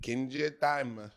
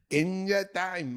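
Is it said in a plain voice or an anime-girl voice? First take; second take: plain voice; anime-girl voice. First: It is said in his own plain voice. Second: It is said imitating the anime girl's voice.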